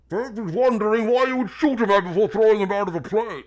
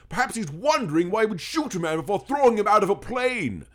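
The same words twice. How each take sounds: First: The words are mumbled and hard to make out. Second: Every word is clearly and carefully enunciated. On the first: Listeners could not understand the words. The speaker calls it wrong. "In the original, it was" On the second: Every word can be understood. The speaker calls it right. "instead of, ... enunciate"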